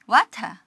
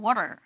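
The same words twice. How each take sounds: First: The word ends without any R sound. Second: The word ends with a pronounced R sound. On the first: "여기에 적용한다면 water가 되겠죠" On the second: "미국식 water겠죠. water, er 하는데"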